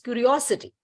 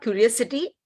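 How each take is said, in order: First: The middle 'o' vowel is long. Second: The middle 'o' vowel is short. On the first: The speaker calls it right. "The O is extended. It is not short" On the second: The speaker calls it wrong. "It is not curiosity"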